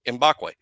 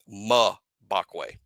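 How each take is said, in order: First: It begins with an 'em' sound, like the letter M. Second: It begins with a short 'muh' sound. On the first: The speaker calls it wrong. "I've been saying Mbakwe like you pronounce the letter M word" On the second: The speaker calls it right. "It's Mabakwe. Like M U H"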